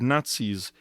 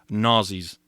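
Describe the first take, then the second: First: The word has a 'ts' sound in the middle. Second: The word has a 'z' sound in the middle. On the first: "He really couldn't pronounce the word Nazis" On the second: "That would be N A R Z E E S"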